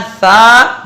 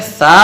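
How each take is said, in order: First: सा with the vowel drawn out; wrong, stretched reading. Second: Said in the usual way. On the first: Shown as a demonstration. Teacher showing what not to read, सा stretched. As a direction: hold सा too long. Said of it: "सा नहीं पढ़ना है". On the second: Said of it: "नहीं पढ़ना है, बल्कि".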